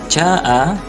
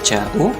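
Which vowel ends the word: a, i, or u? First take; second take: a; u. First: The word ends in an a vowel. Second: The word ends in a u vowel. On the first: The speaker calls it right. "ja'a harus di fathah" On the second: The speaker calls it wrong. "atau ja'u"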